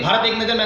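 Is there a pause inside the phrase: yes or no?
no. The phrase runs straight through without pausing. The speaker calls it wrong. "तुरंत नहीं, ... ऐसे नहीं"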